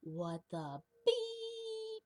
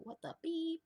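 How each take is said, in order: First: Very high, drawn-out squeaky "What the beep?"; a cartoon TV censor voice, stretched slow and squeaky; TV bleep voice. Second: High squeaky "What the beep?"; quick cartoon censor squeak; TV bleep voice. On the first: In his head when something goes wrong, squeaky high. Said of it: "me just going like". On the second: His new reaction when something's fucked up, squeaky high. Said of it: "I just go".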